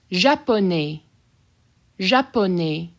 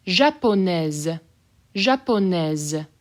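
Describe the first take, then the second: First: Japonais ending on open e, no S; masculine form. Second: Japonaise slow, final S sounded as Z. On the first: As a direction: keep the S of Japonais silent. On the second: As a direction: stretch Japonaise and buzz the Z. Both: Shown as a demonstration. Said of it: "I'll say the S as a Z".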